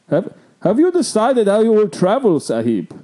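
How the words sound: It is read in a put-on character voice.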